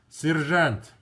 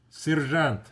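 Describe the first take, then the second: The two takes are said the same way.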